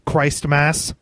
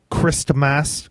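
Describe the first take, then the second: First: Christmas said as Chraist-mas with a long i; playful mispronunciation. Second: Said in the usual way. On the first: Shown as a demonstration. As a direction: stretch the first vowel of Christmas into Christ. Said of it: "Christmas said twice, second altered". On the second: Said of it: "Christmas, Chraistmas".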